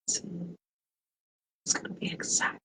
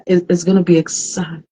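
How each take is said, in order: First: Secretive whisper, barely voiced; hushed, conspiratorial whisper of exciting news. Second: Said in the usual way. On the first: Shown as a demonstration. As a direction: lean in and whisper the tease. Teasing news, repeats as whisper.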